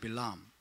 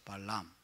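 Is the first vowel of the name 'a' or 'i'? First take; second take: i; a. First: The first vowel sounds like 'i'. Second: The first vowel sounds like 'a'.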